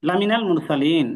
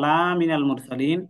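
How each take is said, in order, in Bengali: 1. 'la' এর স্বরধ্বনি ছোট। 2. 'la' এর স্বরধ্বনি টেনে লম্বা করা হয়।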